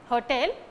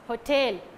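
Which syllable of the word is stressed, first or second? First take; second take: first; second. First: The stress is on the first syllable. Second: The stress is on the second syllable. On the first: The speaker calls it wrong. "It's not hotel" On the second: The speaker calls it right. "but it's hotel"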